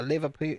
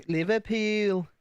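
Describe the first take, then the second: First: Said in the usual way. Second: Slow, higher Liverpool accent, last vowel stretched; drawn-out Scouse accent on the place name. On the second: Shown as a demonstration. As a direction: put on a Liverpool accent, lifted and lengthened. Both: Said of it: "I could do Northern kinda".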